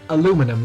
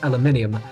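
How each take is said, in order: First: It is said the American way. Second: It is said a non-American way. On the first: "I'm American, so I say aluminum" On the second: "not aluminium"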